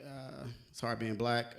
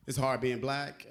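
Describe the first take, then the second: First: Much softer, slow and heavy; quiet, slow aside. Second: Said in the usual way. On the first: Shown as a demonstration. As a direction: drop it to a tired murmur.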